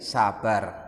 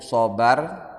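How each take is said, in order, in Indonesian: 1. Suku kata pertama berbunyi 'sa' yang biasa. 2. Suku kata pertama berbunyi 'so' yang gelap. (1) "di Indonesia kan jadi sabar" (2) "Aslinya itu sobar"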